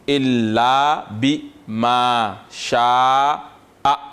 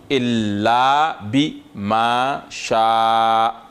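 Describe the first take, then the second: No difference in how they are said.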